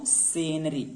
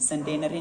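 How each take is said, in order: First: The word is said without a 't' sound. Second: The word is said with a 't' sound. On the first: The speaker calls it right. "टी silent है यहाँ पर" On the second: The speaker calls it wrong. "सेंटेनरी नहीं बोलेंगे"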